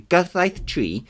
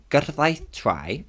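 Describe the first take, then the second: First: "tri" said like English "tree"; corrected tri. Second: "tri" said like English "try"; mispronounced tri. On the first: Naming the law after checking, "tri" rhyming with "see". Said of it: "Yeah, tri". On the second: Reading the law's name wrong, "tri" rhyming with "eye". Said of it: "That's wrong". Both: Real, not acted.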